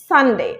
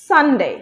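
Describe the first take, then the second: No difference in how they are said.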